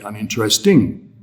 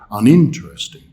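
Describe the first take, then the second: First: The stress falls away from the syllable 'in'. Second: The stress falls on the syllable 'in'. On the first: The speaker calls it wrong. "we don't say uninteresting" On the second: The speaker calls it right. "the stressed syllable is in"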